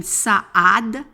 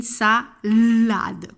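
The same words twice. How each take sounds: First: "saade" as sa-ade, with no L; wrong version "sa-ade", vowels meeting without L; missing consonant. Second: "salade" with a long held L; emphasised L. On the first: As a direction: say "saade" in two beats, dropping the L. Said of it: "on ne dit pas une saade". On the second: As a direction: say "sa-llllade", slowly leaning on the L. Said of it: "on dit une salade". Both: Shown as a demonstration.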